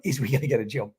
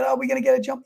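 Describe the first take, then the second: First: "Is we gonna get a jump?" said lower and softer, laughing at the "Is we" slip; wry self-mocking echo of "Is we"; mock repeat of a grammar slip. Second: Said in the usual way. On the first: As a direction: deliberately echo "Is we" as a joke on your own English. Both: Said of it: "My, my English is terrible".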